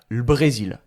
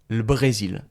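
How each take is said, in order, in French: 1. La voyelle de 'le' est élidée, on entend seulement le L. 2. La voyelle de 'le' est élidée, on entend seulement le L.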